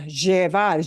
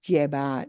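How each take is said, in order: First: The double L sounds like zh, Buenos Aires style. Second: The double L sounds like a plain y.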